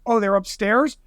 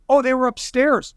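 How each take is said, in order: First: UPSTAIRS rising into a question; sceptical echo question. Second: UPSTAIRS stated as an answer; retold answer. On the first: Retold or imitated. Police questioning a witness's answer, retold sceptical echo. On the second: Witness answering police in a retold interrogation, matter-of-fact. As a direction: say "upstairs" as a statement, falling at the end.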